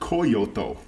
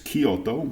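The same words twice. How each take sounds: First: It is said to sound like Toyota. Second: It is said unlike Toyota. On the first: The speaker calls it wrong. "like Toyota" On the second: The speaker calls it right. "but it's Kyoto"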